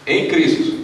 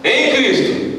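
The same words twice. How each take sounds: First: Said in the usual way. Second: "em Cristo" pitched high and drawn out; stress on "em Cristo". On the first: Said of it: "vamos todo mundo falar bem alto". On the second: Shown as a demonstration. Pastor highlighting the key phrase for the church, "em Cristo" stressed. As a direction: proclaim "em Cristo" high, falling at the end. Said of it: "Vou frisar bem aqui, em Cristo".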